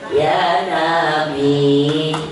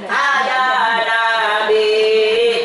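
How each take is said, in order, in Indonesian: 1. Langsung dimulai dengan suku kata 'ya'. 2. Ada vokal 'a' tambahan sebelum 'ya'. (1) "Itu yang betul" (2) "Kadang-kadang nggak gitu"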